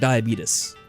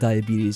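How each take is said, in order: First: The word is said in an imitated announcer's pronunciation. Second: The word is said with its ordinary pronunciation.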